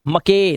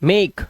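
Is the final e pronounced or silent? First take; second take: pronounced; silent. First: The final e is sounded as a vowel. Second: The final e is silent. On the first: The speaker calls it wrong. "मके नहीं" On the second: The speaker calls it right. "Last का ई silent है"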